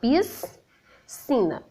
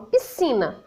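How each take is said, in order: First: The s and c are pronounced as separate sounds. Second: The s and c merge into one s sound. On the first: The speaker calls it wrong. "Eu não falo piscina" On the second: The speaker calls it right. "eu falo piscina, né? Tem o som de S"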